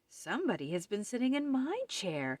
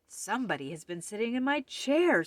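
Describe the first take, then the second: First: It is said in a middle-sized voice. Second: It is said in a great big voice.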